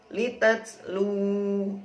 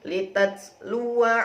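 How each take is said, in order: First: The word ends with a long 'u' vowel. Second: The word ends with a short 'wa' syllable. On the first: The reading stops on this word. "Kalau waqaf litats lu" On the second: The reading continues into the next word. "Kalau wasal dibaca litats luwa"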